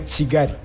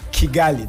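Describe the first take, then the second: First: The name begins with a ch sound. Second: The name begins with a hard k sound. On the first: The speaker calls it right. "We say Chigari" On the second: The speaker calls it wrong. "you wouldn't say Kigali"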